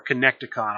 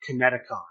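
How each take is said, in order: First: "Connecticon" with a k sound before the t; alternative pronunciation. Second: "Kineticon" with no k sound before the t; alternative pronunciation. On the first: Host offering another reading of convention's name, alternative pronunciation. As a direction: say "Connecticon" as co-NEK-ti-con, like connect. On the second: Host trying a convention's name, unsure pronunciation. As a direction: say "Kineticon" as ki-NET-i-con, like Connecticut. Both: Real, not acted. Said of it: "not sure how you pronounce it".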